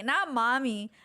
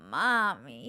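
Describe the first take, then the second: First: Said in the usual way. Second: "mommy" said low, Spanish-accented, with rolling drawn vowels. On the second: Shown as a demonstration. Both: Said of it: "they got that little Spanish accent with it".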